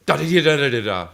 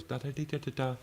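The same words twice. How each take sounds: First: Loud, higher, faster sung phrase; strong version. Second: Quietly sung little phrase; soft version. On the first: Teacher demos a strong wrist flick, loud fast sung phrase. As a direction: belt the phrase out like a hard flick. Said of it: "and you do like this". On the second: Teacher demos a soft wrist flick, quietly sung phrase. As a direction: hum the phrase softly, like a gentle flick. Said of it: "it was soft". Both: Shown as a demonstration.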